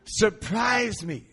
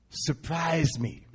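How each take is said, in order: First: Slow, higher and louder; the prayer again, stretched out and bold; emphatic prayer. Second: Slow prayer. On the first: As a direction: lean into each word like a wish. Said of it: "that's a good prayer". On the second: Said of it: "It was only a two-word prayer". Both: Retold or imitated.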